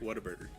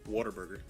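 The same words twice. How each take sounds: First: It is said plainly, as spelled. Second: It is said with a drawl, like water. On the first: This is how people outside the state say it. "just like how it's spelled" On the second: This is how locals in the state say it. "because they have that draw"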